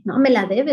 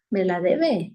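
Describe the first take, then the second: First: Rising, pressing on me; mock stubborn insistence; insistent repeat. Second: Lower, grumbled under the breath; mock a resentful grumble; grudging mutter. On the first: Preacher imitates a resentful person insisting, with a stubborn rising repeat. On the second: Preacher imitates a resentful person, in a low grudging mutter.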